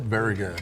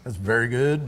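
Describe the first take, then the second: First: Breathy whispered praise; whispering. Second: Said in the usual way. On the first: Real, not acted. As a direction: whisper it to yourself. Repeats praise under breath.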